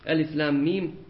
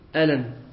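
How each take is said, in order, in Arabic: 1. تُنطق كل حرف باسمه الكامل. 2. تُدمج الحروف في كلمة قصيرة واحدة. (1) "وتنطق هذه الحروف في القرآن بأسمائها" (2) "فلا تقول في ألف لام ميم ألم"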